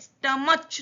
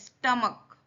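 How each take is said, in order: First: The word ends with a 'ch' sound. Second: The word ends with a 'k' sound. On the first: The speaker calls it wrong. "स्टमच नहीं बोलना है" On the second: The speaker calls it right. "स्टमक है"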